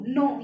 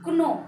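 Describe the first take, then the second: First: The word starts straight with the n sound. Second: A k sound is heard before the n. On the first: This is how the word is said today. "ये वाला नो" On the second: This is how the word was said in the sixteenth century. "तो कैसे इनको बोलते थे, ... silent नहीं है"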